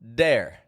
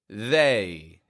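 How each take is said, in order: First: The word begins with a hard d sound. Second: The word begins with a soft th sound. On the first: The speaker calls it wrong. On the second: The speaker calls it right.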